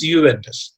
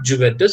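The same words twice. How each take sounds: First: The word begins with a Y sound. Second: The word begins with an English J sound. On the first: The speaker calls it right. "J over here is pronounced as yeah" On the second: The speaker calls it wrong. "if you are uh, going by the letters... but it is not Juventus"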